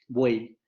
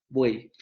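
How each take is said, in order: The two takes are said the same way.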